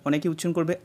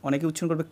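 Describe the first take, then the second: The two takes are said the same way.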